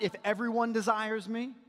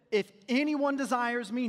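First: "everyone" stressed, the tune rising at the end. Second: "anyone" leaned on, set against everyone; stress on anyone. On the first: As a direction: push "everyone" up as the wrong reading. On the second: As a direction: hit "anyone" and let "desires me" fall away. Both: Shown as a demonstration.

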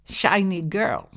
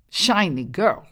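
First: Slowed bullfrog call, falling at the end; lightly voiced frog, slow and falling; croaking frog. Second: Bullfrog call rising at the end; lightly voiced frog repeating with a rise; croaking frog. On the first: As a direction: croak it like a big-bellied frog. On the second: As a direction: croak it again with a lift. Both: A narrator's reading.

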